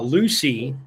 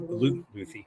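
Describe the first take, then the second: First: The name is said with a plain English sound. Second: The name is said with a Spanish lisped sound. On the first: The speaker calls it right. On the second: The speaker calls it wrong.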